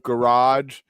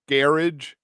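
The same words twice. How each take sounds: First: It is said with an American pronunciation. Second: It is said with a British pronunciation. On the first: "instead of garage" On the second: "English pronunciations, like garage"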